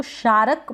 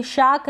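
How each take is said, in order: First: "शारक" में र पूरा, शा-रक; गलत मिसाल "शारक", दो हिस्सों में; पूरा र, गलत रूप. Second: "शाक" में लंबा आ, र गायब; सही मिसाल "शाक", एक हिस्से में; र के बिना. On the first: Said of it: "तो गलत प्रोनाउंसिएशन हो जाएगा". ("शारक" में र के बाद छोटा अ) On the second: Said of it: "इसको शारक बोलेंगे". ("शाक" में र बोले बिना क पर जाएँ) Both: Shown as a demonstration.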